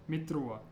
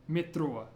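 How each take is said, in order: The two takes are said the same way.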